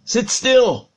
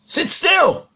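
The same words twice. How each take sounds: First: Put-on slow, higher-pitched order to a child; drawn-out stern parental command. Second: High-pitched, insistent parental order; much higher, sterner command to a child. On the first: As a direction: firmly tell a child to sit still. Acted father commanding his son. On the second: Retold or imitated. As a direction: repeat the order with rising urgency. Father repeats the command, sharper.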